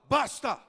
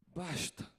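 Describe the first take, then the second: First: The word sounds forceful and defiant. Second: The word sounds tired and resigned. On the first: He is ready to rise up and fight. The speaker calls it wrong. "Ele não fala" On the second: He gives up and does not want to fight. The speaker calls it right. "Ele fala, basta. Chega. Eu desisto"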